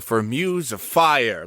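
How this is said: The energy lifts and stays up at the end.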